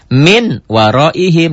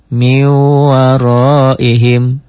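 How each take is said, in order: First: The n sound is pronounced clearly before the m. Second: The n sound merges into the following m. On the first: The speaker calls it wrong. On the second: The speaker calls it right. "dibacanya menjadi miwaroihim"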